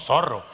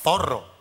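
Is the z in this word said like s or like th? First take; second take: s; th. First: The z is said as an s sound. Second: The z is said as a th sound. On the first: This is how the islanders say it. "decimos zorro" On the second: This is how the islanders do not say it. "No decimos zorro"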